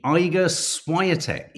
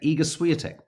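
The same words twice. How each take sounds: First: Iga Swiatek as EYE-ga SWY-a-tek, slowly; mispronounced name. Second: Iga Swiatek as EE-ga SWEE-a-tek; corrected name. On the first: Host fumbling the tennis player's name, saying EYE-ga SWY-a-tek slowly. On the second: Host correcting himself on the tennis player's name, EE-ga SWEE-a-tek. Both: Real, not acted. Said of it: "I can't even pronounce any of the names".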